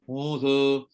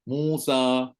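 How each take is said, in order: First: The final vowel is said with mouth barely open. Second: The final vowel is said with mouth wide open. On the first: The speaker calls it wrong. "Tapi dia baca Musa" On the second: The speaker calls it right. "maka bukalah Musa"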